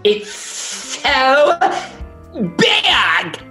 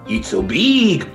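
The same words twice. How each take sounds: First: It is said with a lisp. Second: It is said with a French accent.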